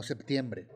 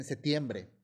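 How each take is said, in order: First: Said in the usual way. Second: "septiembre" said as "setiembre" without the P; Spanish-style septiembre. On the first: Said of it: "no septiembre". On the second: Shown as a demonstration. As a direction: drop the P in "septiembre". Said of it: "no aceptan la P T y dicen".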